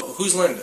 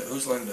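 First: Said in the usual way. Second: Soft, hushed voice; hushed echo of the recording. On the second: Shown as a demonstration. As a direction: let it drop to a hush. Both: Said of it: "it says".

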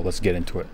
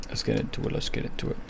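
First: Said in the usual way. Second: Soft, voiceless whisper. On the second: Real, not acted. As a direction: whisper it to yourself, repeating it. Repeats the phrase in a whisper.

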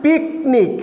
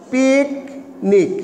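First: Said in the usual way. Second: picnic drawn out slowly, syllable by syllable. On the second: Shown as a demonstration. Teacher showing students picnic slowly, drawn out. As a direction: stretch picnic slowly so students hear each part. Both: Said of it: "একটা শব্দ".

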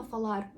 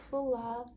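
First: ФАЛАР with a firm Ukrainian R ending; hard final R. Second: ФАЛАР with a light tap and tiny vowel after; soft final R. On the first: Teacher shows what we don't say, hard-R ФАЛАР. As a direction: end ФАЛАР on a hard rolled R. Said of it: "Ми не кажемо фалар". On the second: Teacher shows the correct way, soft-ended ФАЛАР. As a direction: soften the end of ФАЛАР as if adding a sound. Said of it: "додаю якийсь знак в кінці". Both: Shown as a demonstration.

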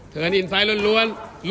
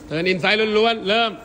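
First: Slow repeat. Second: Said in the usual way. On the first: Shown as a demonstration.

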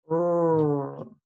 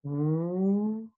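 First: R sound demo. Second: W sound demo. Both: Shown as a demonstration. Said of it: "Watch me make both sounds".

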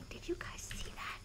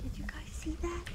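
First: Unvoiced hushed question, fading; almost silent, just breath; whispering. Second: Hushed unvoiced question; whispering. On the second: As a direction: breathe the question, barely sounding it. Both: Real, not acted. Whispering to chat about something spotted. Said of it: "I don't know why I'm whispering".

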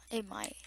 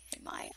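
First: Said in the usual way. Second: Much lower, softer goofy echo; playful low mumbled echo; mock deep voice. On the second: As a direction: drop the repeat into a silly low voice. Repeats it in mock voice.

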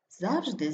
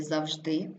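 First: ЗАВжди, falling after stressed ЗАВ; stress on first syllable. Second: ЗавЖДИ, rising on stressed ending; stress on last syllable. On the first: Teacher showing double stress, stress on ЗАВ. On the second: Teacher showing double stress, stress on ЖДИ. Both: Shown as a demonstration. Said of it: "слова із подвійним наголосом".

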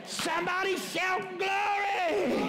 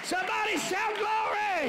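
First: Slow, drawn-out shouted call for glory; preacher's call. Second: High call for the church to shout glory; preacher's call. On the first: Pastor's final call to the church, slow drawn-out shout. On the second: Pastor calling the congregation to shout, high rising call. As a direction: lift the word glory up high. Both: Acted.

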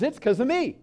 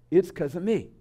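First: Higher-pitched, pleased with oneself; proud child. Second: A touch of guilty resignation; self-blaming child. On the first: Egocentric child when something wonderful happens, proud and higher. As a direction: chirp it like a self-centred kid. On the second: Egocentric child when something terrible happens, mildly self-blaming. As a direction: mildly let down, barely raised. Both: Acted.

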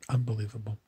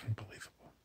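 First: Said in the usual way. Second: Much softer, voiceless whisper. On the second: Shown as a demonstration. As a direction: breathe the word Unbelievable with no voice at all. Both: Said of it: "Why am I saying unbelievable?".

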